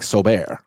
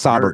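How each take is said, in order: First: The name is said with a French pronunciation. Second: The name is said with an anglicized pronunciation. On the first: This is the original form of the name. "Like French, like Solbert" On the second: The name was adapted after coming to America. "they start anglifying it. It's like, nah, it's Sobert now"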